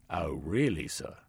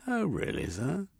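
First: Deadpan disbelief; dry sergeant. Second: High, mocking disbelief; sceptical sergeant. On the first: Sergeant repeats. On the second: Sergeant Koff doubts Jeremy's story, sarcastic. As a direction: drip with sarcasm. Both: A narrator's reading.

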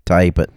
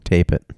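First: "Type it" for tape, a long southern i-sound. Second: Said in the usual way. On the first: Shown as a demonstration. Joking with the cohost, mock Southern "type it". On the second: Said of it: "Type it".

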